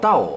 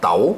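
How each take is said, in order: First: The syllable is said with a falling tone. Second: The syllable is said with a rising tone. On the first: "เสียงโท" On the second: "มันเสียงเป็นจัตวาอยู่ในตัวมันแล้ว"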